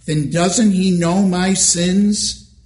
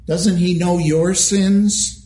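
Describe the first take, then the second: First: Doesn't lifted, the question rising; stress on doesn't. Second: Sins weighted at the end, slowly; stress on sins. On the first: Preacher asking the congregation, doesn't stressed. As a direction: press on doesn't, slowly. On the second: Preacher turning the question on listeners, sins stressed. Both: Acted.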